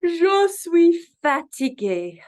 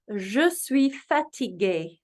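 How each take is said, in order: First: Higher, louder, slow mock weary Je suis fatigué; acted tired. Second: Je suis fatigué said slowly as zhuh swee fateegay; French phrase. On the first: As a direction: groan out Je suis fatigué like you're exhausted. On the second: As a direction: model Je suis fatigué at teaching pace. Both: Shown as a demonstration. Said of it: "I am tired".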